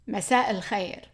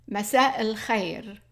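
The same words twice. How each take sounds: First: It is said quickly. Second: It is said slowly.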